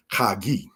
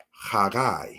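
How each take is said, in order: First: "Chagi" ending in a long ee, kha-GEE; former mistaken reading. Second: "Haggai" ending in an eye sound, kha-GUY; corrected Hebrew reading. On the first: Teacher recalling an old misreading, "Chagi" said kha-GEE. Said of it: "is what I used to think it was". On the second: Teacher correcting an old misreading, "Haggai" said kha-GUY. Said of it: "this says Haggai". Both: Shown as a demonstration.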